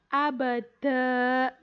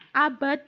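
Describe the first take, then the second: First: The word ends on a long final a vowel. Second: The word ends abruptly on the consonant d. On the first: The speaker calls it right. "dibacanya itu abada" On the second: The speaker calls it wrong. "dibacanya bukan abad"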